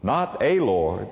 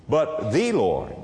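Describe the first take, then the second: First: "a" held up on a slow rise; slow, questioning lift on "a"; stress on a. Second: "the" hit firmly, falling, slow; slow, weighty "the" before Lord; stress on the. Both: Shown as a demonstration.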